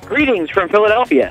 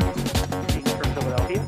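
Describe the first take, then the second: First: It is said loudly. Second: It is said quietly.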